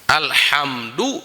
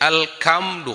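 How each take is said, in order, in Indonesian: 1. Konsonan di tengah itu bunyi h yang berdesah. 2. Konsonan di tengah itu bunyi k yang keras.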